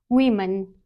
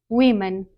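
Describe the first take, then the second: Both takes have the same delivery.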